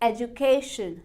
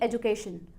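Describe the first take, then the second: First: The stress is on the 'ca' syllable. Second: The stress is not on the 'ca' syllable. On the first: The speaker calls it right. "के ई वाई वाले part को stress करना है" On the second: The speaker calls it wrong. "ना कि education"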